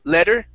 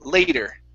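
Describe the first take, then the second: First: The first vowel is a short plain e sound. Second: The first vowel is a gliding ay diphthong. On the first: The speaker calls it wrong. "Instead of le, or sorry, le, letter" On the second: The speaker calls it right. "it's a diphthong, so it's A ... it's lay, later"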